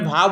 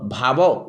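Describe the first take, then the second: First: The word ends in a bare consonant. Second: The word ends with an added 'o' vowel. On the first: This is the Hindi pronunciation. "भाव बोलता हूँ हिंदी में" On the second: This is the Odia pronunciation. "भावो उड़िया में"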